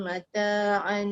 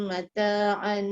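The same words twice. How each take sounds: The two takes are said the same way.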